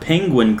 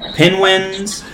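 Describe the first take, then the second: First: The word is said as penguin. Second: The word is said as penwins. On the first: The speaker calls it right. "didn't say the word penguin correctly" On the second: The speaker calls it wrong. "He couldn't say it right"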